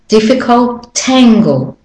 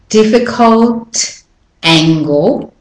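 First: The final T joins onto the next vowel. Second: The words are said separately, not joined.

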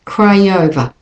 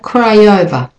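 First: The two words are linked together. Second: The same.

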